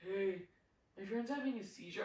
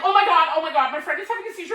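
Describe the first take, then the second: First: Very soft, lower, casual mumble; nonchalant. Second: Louder, rushed, acted alarm; mock panic. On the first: Retold or imitated. Imitating the man who strolled over about his friend, nonchalant. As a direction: toss it off quietly, no urgency at all. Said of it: "Like, just so nonchalant". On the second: Showing how a worried friend would report a seizure, mock panic. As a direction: blurt it out like an urgent cry for help. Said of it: "I would be acting more like".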